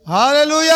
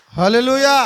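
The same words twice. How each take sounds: First: High, louder hallelujah shout. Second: Loud call of hallelujah. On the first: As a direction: raise it up so he can hear. (మరింత గట్టిగా హల్లెలూయా) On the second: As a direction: shout it out together. (గట్టిగా హల్లెలూయా) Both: Real, not acted. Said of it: "నాకు విన రావడం లేదు".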